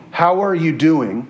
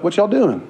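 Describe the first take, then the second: First: Said in the usual way. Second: Light Texan accent, pitched up. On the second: Shown as a demonstration. Preacher showing how Texans greet, light Texan accent. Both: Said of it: "you'll start talking like a Texan".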